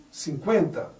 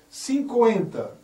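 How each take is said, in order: First: Said in the usual way. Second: "Cinquenta" said slowly as "sin-ko-enta", the u as a full vowel; wrong pronunciation. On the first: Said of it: "O certo". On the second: Shown as a demonstration. Teacher to class, slowly demonstrating the error. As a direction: drag out the mistaken "sin-ko-enta".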